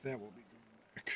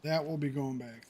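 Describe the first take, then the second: First: Quiet low mutter under breath. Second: Said in the usual way. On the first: Real, not acted. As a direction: mutter it to yourself, lower. Repeats line to self.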